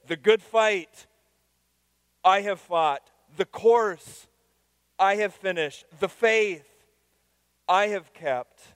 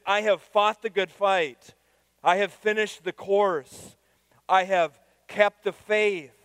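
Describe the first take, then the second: First: Good fight, course, faith hit high and loud, then I have fought falls away; stress on the objects. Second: Slow, high and loud, each line falling; proclaimed verse. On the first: Pastor shows the Greek word order, punching the object first. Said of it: "so the emphasis is there". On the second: Pastor reads Paul's words to the congregation, slow and ringing. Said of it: "the original language says literally". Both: Shown as a demonstration.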